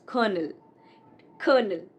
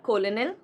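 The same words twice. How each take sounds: First: "colonel" as KER-nul, falling; correct colonel. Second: "colonel" as KOL-uh-nel, rising; mispronounced colonel. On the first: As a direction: say "colonel" like kernel. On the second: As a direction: read "colonel" as spelt, ko-lo-nel. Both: Shown as a demonstration. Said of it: "It's not colonel".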